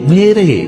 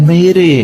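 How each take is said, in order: No difference in how they are said.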